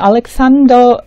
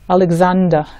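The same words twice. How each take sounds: First: The middle consonant sounds like an s. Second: The middle consonant sounds like a z. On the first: "미국에서는 알렉산더 S 발음에 더 가깝게" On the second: "영국 사람들은 들어보면 알렉산더, 잔더로 발음"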